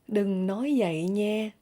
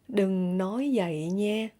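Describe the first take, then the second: No difference in how they are said.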